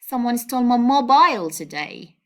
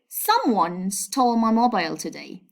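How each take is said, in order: First: The word mobile carries the main stress. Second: The word someone carries the main stress. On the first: The focus is on the phone itself. "by stressing this word" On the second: The focus is on who took the phone. "by stressing the subject, I mean someone"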